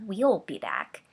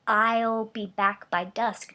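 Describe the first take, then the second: First: We'll said slower and leaned on; stress on we'll. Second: I'll drawn out slowly and leaned on; stress on I'll. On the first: Wife noting the missing we'll, stressing it. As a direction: lean on we'll as the expected word. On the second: Wife recalling her husband's exact words, stressing I'll. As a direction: slowly hit I'll, the single speaker. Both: Acted.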